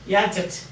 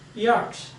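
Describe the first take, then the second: First: Every written letter is sounded out, with extra syllable. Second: Several written letters stay silent, one short syllable. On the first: The speaker calls it wrong. "if you are using a phonetic spelling, it will be yachet" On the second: The speaker calls it right. "But you know it is yacht. That is the pronunciation"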